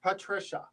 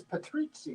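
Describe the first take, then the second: First: Said in the usual way. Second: "Patrizia" the Polish way, with a ts sound; Polish pronunciation. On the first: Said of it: "but in Polish it's Patrizia". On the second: Shown as a demonstration. Trying out the Polish form of the name, Polish pronunciation. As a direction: say "Patrizia" as pa-TREET-sya. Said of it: "in Polish it's Patrizia".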